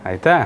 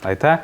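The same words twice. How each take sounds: Both takes have the same delivery.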